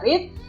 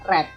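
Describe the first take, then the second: First: It does not sound like the colour red. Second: It sounds like the colour red. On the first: It is the present form. "Kalau verb satu dibaca read" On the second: It is the past form. "kalau verb dua dibaca read"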